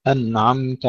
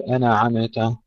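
First: Slow أنعمت as "an'amta", no echo vowels; still nun and mim. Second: أنعمت as "ana'ameta", echo vowels after n and m; bounced nun and mim. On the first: Teacher modelling correction, slow unbounced أنعمت. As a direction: hold ن and م cleanly in أنعمت. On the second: Teacher showing what to avoid, qalqalah in أنعمت. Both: Shown as a demonstration. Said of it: "لا نقلقل لا النون ولا الميم".

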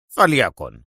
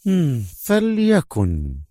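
First: Lower, falling فليكن; mild vexed man. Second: Higher, very slow resigned fliakun; calmed female voice. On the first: The inspector threatening arrest, lower and vexed. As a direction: clip فليكن low and falling. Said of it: "صاح محنقا". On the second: The major giving in to the inspector, slow and resigned. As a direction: stretch فليكن slowly, falling. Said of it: "تمالكت أعصابها". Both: Acted.

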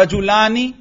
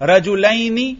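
First: رجلانی with a long open laa and ni at the end; alif form. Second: رجلینی raised in pitch, with a lai diphthong and ni at the end; ya form. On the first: Teacher showing nun keeps its kasra, alif form. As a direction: sound the alif clearly in رجلانی. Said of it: "تلفظ سے ہی آپ کو پتہ چل رہا ہے". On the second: Teacher showing nun still keeps kasra, ya form. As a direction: sound the ya clearly in رجلینی. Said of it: "اب بھی نون کے نیچے زیر". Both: Shown as a demonstration.

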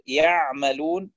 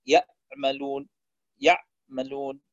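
First: يعملون with the ayn held and flowing. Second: Slow يعملون, ayn chopped short near a hamza, then a gap; cut-off ayn. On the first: Teacher giving correct recitation, يعملون with a flowing ayn. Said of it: "بدل أن يقول". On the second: Teacher showing a mistake, يعملون with the ayn cut off. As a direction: break off the ayn of يعملون abruptly. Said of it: "يبتره بحيث يصبح قريب من الهمزة". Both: Shown as a demonstration.

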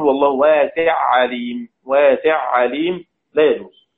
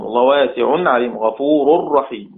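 First: واسع عليم read with the nun merged into عليم; wrong merged reading. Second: واسعن عليم with the tanween nun kept clear; correct clear reading. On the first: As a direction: show the forbidden idgham reading. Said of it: "ما ينفعش نقول". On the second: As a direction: recite with the nun pronounced. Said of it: "فلا يجوز الإدغام". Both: Shown as a demonstration.

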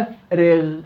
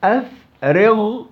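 First: "أفرغ" slowly with a lighter final ghayn; relative tafkhim. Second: "أفرغ" drawn out slowly with a thick, rounded final ghayn; over-heavy ghayn. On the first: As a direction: keep the غ in "أفرغ" unrounded after i. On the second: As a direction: stretch and weigh down the غ in "أفرغ". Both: Shown as a demonstration. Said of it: "هذا تفخيم نسبي".

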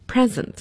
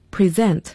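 First: Present, stress on the first syllable, PRE-sent; noun stress. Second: Present, stress on the second syllable, pre-SENT; verb stress. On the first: Teacher contrasting for the class the noun present, PRE-sent. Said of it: "名词present". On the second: Teacher contrasting for the class the verb present, pre-SENT. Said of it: "要注意动词present". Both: Shown as a demonstration.

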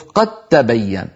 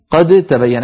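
First: قد تبين said as qattabayyan; merged doubled ta. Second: قد تبين said as qad-tabayyan, unmerged; unmerged dal. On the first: Teacher showing assimilation, one doubled t. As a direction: turn the د of قد into t, held into تبين. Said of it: "ننطق تاء مشددة هكذا". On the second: Teacher showing the faulty reading, separate d and t. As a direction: keep a distinct d at the end of قد, then t in تبين. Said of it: "هذا لحن لغة". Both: Shown as a demonstration.

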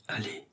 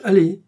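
First: Hushed, near-whispered urging; low voice. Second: High, loud order; insistent command. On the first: A narrator's reading. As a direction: urge him on under your breath. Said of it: "lui dit Blanche à voix basse". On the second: Acted. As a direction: order him to go, sharply raised. Insistent order after his refusal.

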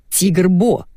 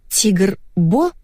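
First: Said in the usual way. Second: "Тигр Бо" rising into a question; "Тигр Бо?" repeated back in doubt; puzzled echo. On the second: A narrator's reading. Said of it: "переспросила я".

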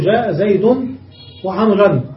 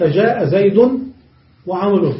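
First: وعمرا ended with a and nunation; accusative ending. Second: وعمرو ended with u as subject; nominative ending. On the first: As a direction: close وعمرا on -an as object with. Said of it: "ويجوز النصب فتقول". (وعمرا بالنصب، بفتح الآخر وتنوين) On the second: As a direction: say وعمرو with the final u sound, case raised. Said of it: "يجوز رفعه تقول". (وعمرو بالرفع، بضم الآخر) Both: Shown as a demonstration.

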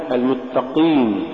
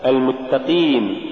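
First: المتقين with Q too thick, darkening the ee; over-heavy qaf. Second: المتقين with a clean ee after the Q; lighter qaf. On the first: Tajweed teacher showing the mistaken reading, over-heavy qaf. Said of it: "تقرأ لحنا". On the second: Tajweed teacher giving the example, lighter qaf. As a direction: keep qeen clear in المتقين. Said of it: "ونحو". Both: Shown as a demonstration.

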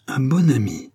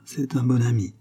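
First: Incredulous, contemptuous echo; scornful exclamation. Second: Said in the usual way. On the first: A narrator's reading. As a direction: throw the words back with disdain. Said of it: "s'écria la reine avec une nouvelle explosion de mépris".

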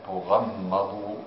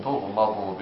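First: تغمضوا with a doubled, held mim and open ghayn. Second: تغمض as tugh-ma-du, with short undoubled m; light single mim. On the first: Student reading a variant to the teacher, doubled mim in تغمضوا. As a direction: stretch the m in تغمضوا as tu-gham-ma-du. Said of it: "مشددة". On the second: Student reading the second variant, light single mim in تغمض. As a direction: close the ghayn in تغمض, then a light ma. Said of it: "بضم التاء وسكون الغين وفتح الميم مخففة". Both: Shown as a demonstration.

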